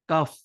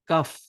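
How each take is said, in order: Both takes have the same delivery.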